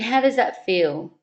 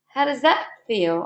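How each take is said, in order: First: The voice is low, flat and low-energy. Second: The voice is bright, lively and high-energy. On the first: The speaker is slumped and feels down. The speaker calls it wrong. "You can probably even hear it in my voice, you know. I'm slumped down" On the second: The speaker is upright and feels good. The speaker calls it right. "stand up. Chest out, shoulders back, and smile"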